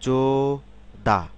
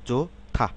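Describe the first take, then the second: First: The second syllable starts with a plain d. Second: The second syllable starts with an aspirated t. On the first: The speaker calls it wrong. "Syllable অনুসারে উচ্চারণ করি" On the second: The speaker calls it right. "কিন্তু আসলে কি হবে?"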